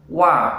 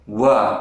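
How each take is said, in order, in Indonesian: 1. Suku katanya ringan dan bersih. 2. Suku katanya berhembus dan berat. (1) "Yang benar wa" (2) "dibaca dengan angin atau terlalu tebal"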